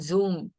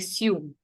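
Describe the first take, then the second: First: The syllable begins with a buzzing z sound. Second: The syllable begins with a hissing s sound. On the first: The speaker calls it wrong. "Zoom is how you said it" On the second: The speaker calls it right. "we say sume"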